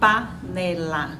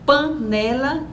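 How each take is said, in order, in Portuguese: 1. A primeira vogal é oral, não nasalizada. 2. A primeira vogal é nasalizada. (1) "eles dizem panela" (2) "Nós dizemos"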